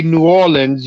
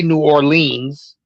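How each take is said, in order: First: "Orleans" as OR-linz, short ending; local pronunciation. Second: "Orleans" as or-LEENS; long-ee pronunciation. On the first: Showing the co-host's way, "Orleans" as OR-linz. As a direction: say "Orleans" stressed up front, OR-linz. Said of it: "You say". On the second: Showing what co-host doesn't say, "Orleans" as or-LEENS. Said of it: "You don't say". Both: Shown as a demonstration.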